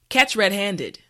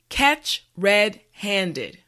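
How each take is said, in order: First: The phrase is said at normal speed. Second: The phrase is said slowly and carefully. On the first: "now let's say it at a normal pace" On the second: "repeat after me"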